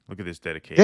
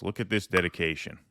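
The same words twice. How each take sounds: First: Louder, showy second take; mock proud announcement. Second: Said in the usual way. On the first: Shown as a demonstration. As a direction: play up the dedication boastfully. Repeats line louder, mock pride.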